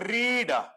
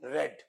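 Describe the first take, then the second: First: The vowel is long, like 'reed'. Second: The vowel is short, like 'red'. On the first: It is the base form of the verb. "Number one, ರೀಡ್" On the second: It is the past participle form of the verb. "ರೆಡ್ ಅಂತ ಮಾಡಬೇಕು"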